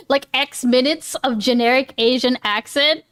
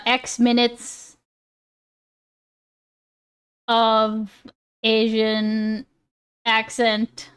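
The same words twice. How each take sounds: First: Said in the usual way. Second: Slow, spaced out word by word; slow dictation. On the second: Real, not acted. Streamer noting a punishment idea, slowly dictating. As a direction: spell it out slowly while writing it down. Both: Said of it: "I am gonna write that down".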